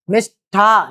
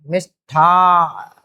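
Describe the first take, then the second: First: मिष्ठा slowly drawn out with plain unaspirated ठ, sounded as the wrong form; slow demo of the wrong मिष्ठा, ठ kept light; wrong spelling said out. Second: मिष्ठा said very slowly with a strongly aspirated ठ; very slow teaching demo of मिष्ठा with a heavy ठ; right spelling said out. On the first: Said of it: "मिष्ठा नहीं". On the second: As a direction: stretch out मिष्ठा and push breath into the ठ. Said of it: "मिष्ठान होगा". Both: Shown as a demonstration.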